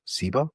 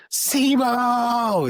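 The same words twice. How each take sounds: First: Said in the usual way. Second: Name bellowed much higher and louder; a booming, commanding shout of the name; screamed name. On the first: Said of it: "he just looks at me and he goes". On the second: Retold or imitated. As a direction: yell it like Morpheus calling out. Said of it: "It screams it like freaking Morpheus".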